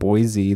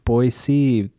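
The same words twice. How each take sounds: First: The middle consonant is a buzzing Z sound. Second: The middle consonant is a hissing S sound. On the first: The speaker calls it wrong. "It's not Boise. There's no Z in it" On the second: The speaker calls it right. "it's Boise"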